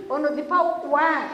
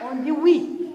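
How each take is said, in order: First: Ouais said as slangy "wè"; wrong form ouais. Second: Oui said clearly as "wi"; correct form oui. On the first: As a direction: drop the word ouais like a lazy kid. (ouais prononcé « wè », familier) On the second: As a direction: give the proper oui firmly. (oui prononcé « wi », net et correct) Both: Shown as a demonstration.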